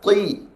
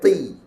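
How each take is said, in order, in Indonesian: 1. Suku kata itu terdengar berat dan tebal. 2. Suku kata itu terdengar ringan dan tipis. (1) "Semua tebal" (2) "Dia tak boleh baca"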